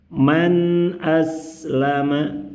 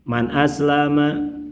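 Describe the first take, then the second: First: The n sound is held for a moderate length. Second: The n sound is very short and rushed. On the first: The speaker calls it right. "sedang-sedang saja, jangan terlalu cepat, jangan terlalu lama" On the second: The speaker calls it wrong. "Terlalu cepat"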